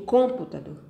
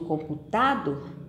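First: The stress is on the first syllable. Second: The stress is on the third syllable. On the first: "Eu digo computador? Não" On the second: "Eu digo computador? Não"

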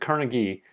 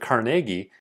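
First: The name is said the usual American way. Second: The name is said the Scottish way. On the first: "that's what I'm used to saying" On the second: "as the Scottish like to pronounce it"

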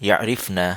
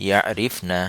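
Both takes have the same delivery.

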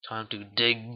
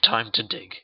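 First: The word dig is said with heavy emphasis. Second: The word dig is said plainly, without extra force.

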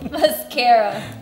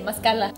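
First: The middle consonant is an R sound. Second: The middle consonant is an L sound. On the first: The speaker calls it right. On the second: The speaker calls it wrong.

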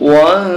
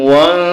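The two takes are said the same way.

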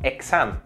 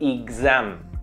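First: The x is pronounced as a voiceless ks. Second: The x is pronounced as a voiced gz. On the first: The speaker calls it wrong. "no digo exam" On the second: The speaker calls it right. "sino exam"

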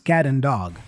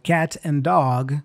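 First: The t in 'cat' is a quick flap. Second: The t in 'cat' is a clear t.

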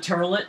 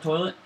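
First: The first vowel sounds like 'ur', Jersey-style. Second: The first vowel sounds like 'oi', standard-style. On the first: This is how the father says it. "he goes to the turlet" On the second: This is the usual way to say it. "not the toilet"

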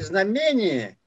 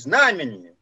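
First: The stress is on the second syllable. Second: The stress is on the first syllable. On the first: This stress makes the word rhyme. The speaker calls it wrong. "Заканчивается у меня словами «знамение»" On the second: This is the standard stress. The speaker calls it right. "хотя правильное ударение в этом слове «знамение»"

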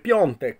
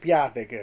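First: It has a nasal 'on' sound, Polish style. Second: It is read with plain Italian letter sounds.

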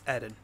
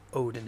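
First: The name begins with an 'ee' sound. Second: The name begins with an 'oh' sound. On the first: The speaker calls it right. "it's Eden. It's pronounced like Oedipus" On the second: The speaker calls it wrong. "it's not Odin"

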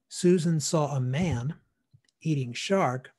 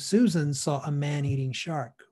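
First: There is a pause between man and eating. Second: Man and eating run together without a pause. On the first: A person is eating shark meat. "the man is eating a shark steak" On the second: The shark is one that eats people. "You would shorten the gap between those two words"

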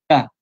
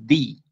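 First: The vowel is a short, open 'uh' sound. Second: The vowel is a closed 'ee' sound. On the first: "esa es la pronunciación normal" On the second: "ahí cambia un poquito a I, se cierra"

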